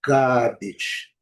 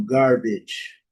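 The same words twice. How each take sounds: First: "Garbage" with no R and a long A; British pronunciation. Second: "Garbage" with the R sounded; American pronunciation. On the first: Teacher showing British English, "Garbage" with silent R and long A. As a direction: say "Garbage" as "GAH-bidge", vowel held. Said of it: "o inglês britânico é pronunciado". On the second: Teacher contrasting American English, "Garbage" with a pronounced R. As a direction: say "Garbage" as "GAR-bidge", R before the b. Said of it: "no inglês americano". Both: Shown as a demonstration.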